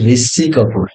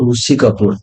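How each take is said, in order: First: The first syllable is pronounced 'ri'. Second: The first syllable is pronounced 'ru'. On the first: This is how other speakers say it. "କିନ୍ତୁ ସେମାନେ କହନ୍ତି" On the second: This is how Odia speakers say it. "ଋଷି ଆମେ କହିଥାଉ"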